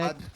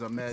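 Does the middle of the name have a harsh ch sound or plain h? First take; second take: harsh ch; plain h. First: The middle sound is a harsh, throaty ch. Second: The middle sound is a plain, soft h. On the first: This is how others mispronounce it. The speaker calls it wrong. "like some people be saying" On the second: This is the name as it should be said. The speaker calls it right.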